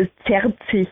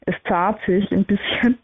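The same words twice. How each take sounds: First: Said in the usual way. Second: Zahrt mit langem a statt zerrt; österreichische Aussprache. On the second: Shown as a demonstration. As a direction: zahrt österreichisch gedehnt sprechen. (zahrt auf Österreichisch ausgesprochen) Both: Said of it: "oder in Österreichisch würde man sagen".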